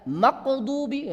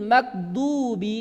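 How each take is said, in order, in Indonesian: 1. Konsonannya bunyi q. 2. Konsonannya bunyi g keras. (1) "sudah jadi qaf dipantulkan lagi, ini salah" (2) "ada yang membaca ghain itu dengan suara G"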